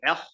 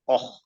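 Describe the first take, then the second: First: The vowel is an open, unrounded ah. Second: The vowel is a rounded oh. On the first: The speaker calls it right. "rather than saying ah" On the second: The speaker calls it wrong. "they'll say oh, and that completely changes the sifa"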